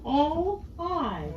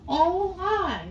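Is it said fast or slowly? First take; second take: slowly; fast. First: It is said fairly slowly. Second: It is said fast, almost as one sound.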